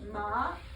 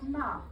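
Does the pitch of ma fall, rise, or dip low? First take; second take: rise; fall. First: The pitch rises on the syllable. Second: The pitch falls sharply on the syllable. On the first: It means numb. "If I say it going up" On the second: It is a scolding word. "If I say it going down"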